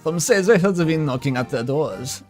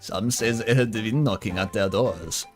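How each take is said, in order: First: The voice is pitched higher. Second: The voice is pitched lower.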